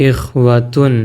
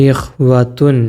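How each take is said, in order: The two takes are said the same way.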